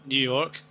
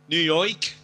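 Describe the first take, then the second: First: Said in the usual way. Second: Higher, put-on New York accent. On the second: Shown as a demonstration. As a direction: say New York like a caricature New Yorker. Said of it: "you've got New York".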